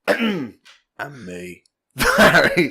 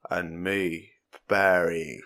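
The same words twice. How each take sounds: First: It is said in a casual everyday voice. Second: It is said in a put-on serious voice.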